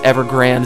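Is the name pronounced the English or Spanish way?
English. The name is pronounced with English sounds. The speaker calls it right. "it's a lot cooler"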